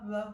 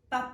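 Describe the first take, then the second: First: The consonant is released slowly and softly. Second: The consonant is released very quickly and crisply. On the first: The speaker calls it wrong. "Et pas simplement ba" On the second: The speaker calls it right. "d'aller très vite dans mon P"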